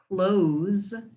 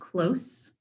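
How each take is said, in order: First: The word ends with a z sound. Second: The word ends with an s sound. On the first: Something is being shut. "you pronounce it with a Z sound at the end" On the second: Something is nearby. "You pronounce it with a S, with an S sound at the end"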